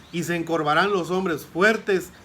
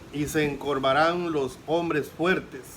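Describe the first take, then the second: Both takes have the same delivery.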